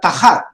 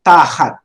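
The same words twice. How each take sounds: First: Tahat with the stress moved onto hat; short ta, punched HAT in tahat; wrong stress, second syllable. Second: Tahat with a long, stressed ta; stress on first syllable. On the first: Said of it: "Not tahat, but". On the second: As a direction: hold and hit the Ta in tahat, drop off on hat. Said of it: "Notice the pronunciation". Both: Shown as a demonstration.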